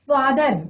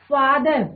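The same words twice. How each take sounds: The two takes are said the same way.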